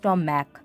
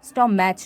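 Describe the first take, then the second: First: The word ends with a 'k' sound. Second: The word ends with a 'ch' sound. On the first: The speaker calls it right. "সিএইচ এর উচ্চারণ যদি কের মতো হয়" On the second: The speaker calls it wrong. "নয়"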